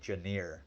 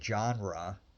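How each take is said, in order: First: The first syllable sounds like 'gen' in 'generate'. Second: The first syllable does not sound like 'gen'. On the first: This is the speaker's own habit. "I say genre" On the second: This is how most people say it. "people say genre"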